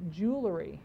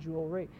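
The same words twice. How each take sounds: First: The middle is said as 'ler' before 'y'. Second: The word 'jewel' is followed by 'ry'. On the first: The speaker calls it wrong. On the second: The speaker calls it right.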